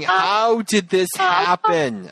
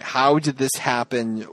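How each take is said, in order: First: Slow, dazed how did this happen; mock bewildered Hillary. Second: Slower, puzzled repeat; mock puzzled. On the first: Lightly voiced Hillary, slowly asking how did this happen. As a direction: drag it out, stunned and lost. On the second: A hint of puzzled Hillary, repeating it slowly. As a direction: ask it again, lost. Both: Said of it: "Hillary is standing there going".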